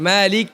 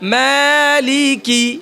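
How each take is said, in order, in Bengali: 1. শব্দটি একটি সাধারণ k ব্যঞ্জনে শেষ হয়েছে। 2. শব্দটি একটি স্পষ্ট i স্বরধ্বনিতে শেষ হয়েছে। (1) "এখানে এটাকে সাকিন করে ফেলে" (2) "মালিকি স্পষ্ট করতে হবে"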